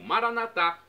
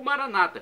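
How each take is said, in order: First: The stress is on the final syllable. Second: The stress is on the second-to-last syllable.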